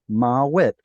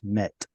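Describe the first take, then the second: First: A W sound is heard between the two vowels. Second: No W sound; it is one short syllable. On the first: This is the older, original form. "remember vav was originally a W sound" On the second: This is the later, simplified form. "it's going to get simplified"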